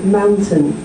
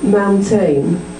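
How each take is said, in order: First: The second syllable has a reduced vowel. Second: The second syllable has a full vowel. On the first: The speaker calls it right. "I say mountain" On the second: The speaker calls it wrong. "instead of saying mountain"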